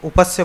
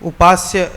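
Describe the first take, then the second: First: The vowel after 'up' is short. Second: The vowel after 'up' is long. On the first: The speaker calls it wrong. "उसको उपस्य पढ़ रहे थे" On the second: The speaker calls it right. "उपास्य है"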